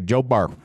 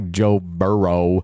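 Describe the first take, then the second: First: The surname is clipped to one syllable. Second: The surname is said with two syllables. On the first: "They say Joe Burr" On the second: "They don't say Joe Burrow"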